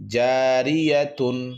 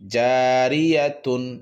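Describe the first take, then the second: Both takes have the same delivery.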